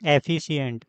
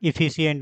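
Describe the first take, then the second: First: The first vowel sounds like 'e'. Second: The first vowel sounds like 'i'. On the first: The speaker calls it right. "एफिशिएंट बोलते हैं" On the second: The speaker calls it wrong. "इफिशिएंट नहीं"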